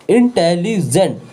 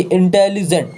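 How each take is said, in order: First: intelligent said slowly, its parts set apart with small gaps; slow, spaced-out intelligent; split into syllables. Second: Said in the usual way. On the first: Shown as a demonstration. (Intelligent को धीरे-धीरे, शब्द-खंड अलग करके बोलें) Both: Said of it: "दो बार आ रहा".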